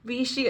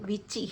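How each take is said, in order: First: The middle consonant is a 'sh' sound. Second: The middle consonant is a 'ch' sound. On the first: The speaker calls it right. "ഇതവർ പ്രൊനൗൺസ് ചെയ്യുന്ന" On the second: The speaker calls it wrong. "ഞാൻ ഇത്രയും നാൾ ഈ സാധനത്തിൻ്റെ പ്രൊനൗൺസ് ചെയ്തുകൊണ്ടിരുന്നതെന്നറിയോ"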